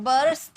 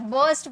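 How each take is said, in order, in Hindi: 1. r की ध्वनि साफ़ बोली जाती है। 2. r की ध्वनि साइलेंट रहती है। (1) "बर्स्ट नहीं बोलते हैं" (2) "इसे आर साइलेंट होता है, बर्स्ट बोलते हैं"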